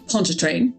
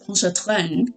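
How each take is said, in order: First: The name is said the usual, common way. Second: The name is said with a French pronunciation. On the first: "most people Pontchartrain" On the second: "the narrator has more of the French Pontchartrain"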